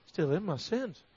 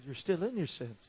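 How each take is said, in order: First: Low echo rising on "sins"; puzzled "sins?" with a rising tune; questioning echo. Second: Said in the usual way. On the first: Retold or imitated. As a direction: repeat it back as a question, lifting "sins" at the end. Questioning echo of the Lord's words.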